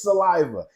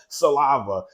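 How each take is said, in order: First: The word is said with standard vowels. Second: The word is said with altered vowels. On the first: The speaker calls it right. "It's saliva" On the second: The speaker calls it wrong. "it's not called saliva"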